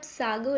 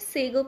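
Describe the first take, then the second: First: The first vowel sounds like 'ah'. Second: The first vowel sounds like 'ay'. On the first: The speaker calls it wrong. "इसे आप सागो नहीं" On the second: The speaker calls it right. "इसे सेगो पढ़ेंगे"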